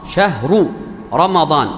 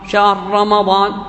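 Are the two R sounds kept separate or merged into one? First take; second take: separate; merged. First: Both R sounds are pronounced separately with vowels. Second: A single doubled R sound joins the words. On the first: "شهر متحركة ورمضان متحرك" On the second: "راء واحدة ينطقها مشددة"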